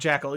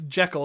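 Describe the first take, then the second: First: The first syllable sounds like 'jack'. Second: The first syllable sounds like 'jeck'. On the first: The speaker calls it wrong. "not Jackal" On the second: The speaker calls it right. "it's it's it's Jekyll"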